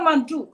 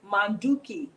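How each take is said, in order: First: The word ends without its final syllable. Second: The word ends with its full final syllable. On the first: "they cut off that last syllable" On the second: "Manduki means to cook"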